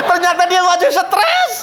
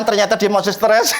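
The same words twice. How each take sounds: First: "Ternyata dia masih stres" higher and laughing; laughing repeat. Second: Said in the usual way. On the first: Shown as a demonstration. ("Ternyata dia masih stres" diulang sambil tertawa, nada tinggi)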